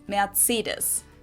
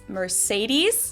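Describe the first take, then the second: First: It is said the German way. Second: It is said the American English way.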